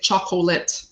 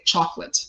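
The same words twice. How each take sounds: First: All three syllables are pronounced, including the middle vowel. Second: The middle vowel is dropped, giving two syllables. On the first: The speaker calls it wrong. "We don't say chocolate" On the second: The speaker calls it right. "we say chocolate / We drop the the unstressed vowel"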